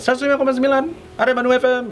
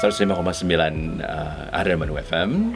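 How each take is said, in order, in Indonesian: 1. Suaranya bernada tinggi dan bersemangat. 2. Suaranya lebih rendah, lebih lambat, dan lebih tenang. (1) "kalau pagi kan berarti tone-nya tinggi, nadanya tinggi" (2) "masuk yang jalur lambat yang jam sepuluh"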